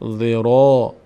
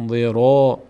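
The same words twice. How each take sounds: The two takes are said the same way.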